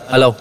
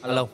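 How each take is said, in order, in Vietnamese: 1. Giọng nghe rất to. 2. Giọng nghe nhỏ. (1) "Ví dụ tăng lên 60 nè. thì nó sẽ rất là lớn" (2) "gain 40 nè, mình nói chuyện nhỏ xíu à"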